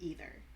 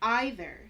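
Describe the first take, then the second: First: The word has an American-style pronunciation. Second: The word has a British-style pronunciation. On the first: "instead of" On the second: "I used to say"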